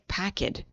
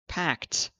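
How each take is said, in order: First: The ending is sounded as an extra syllable. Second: The ending is a T sound, one syllable. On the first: The speaker calls it wrong. "they say packed. We can't do it" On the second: The speaker calls it right. "when we have another hard sound like packed"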